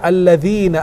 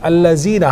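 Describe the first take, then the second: First: The middle consonant is a voiced th sound. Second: The middle consonant is a z sound. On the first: The speaker calls it right. "harusnya alladzina" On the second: The speaker calls it wrong. "dibilang allazina"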